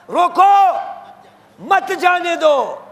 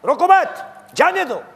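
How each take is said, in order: First: High held "روکو", pause, then slow "مت جانے دو"; pause after روکو. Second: Brisk high "روکو مت", then separate "جانے دو"; pause after مت. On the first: Preacher voices God's order, pausing after روکو. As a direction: proclaim روکو alone, then stretch مت جانے دو as one command. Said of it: "اور خدا کیا کہہ رہا ہے؟". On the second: Preacher mimics people excusing their own, pausing after مت. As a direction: run روکو into مت, set جانے دو apart. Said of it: "ہمیں ہماری کانوں میں یہی سکھایا گیا ہے". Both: Shown as a demonstration.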